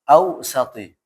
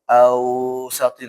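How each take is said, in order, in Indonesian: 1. Bunyi vokalnya dibiarkan pendek. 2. Bunyi vokalnya dipanjangkan. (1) "Maka dia lanjut ya" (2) "nggak boleh dibaca ausati"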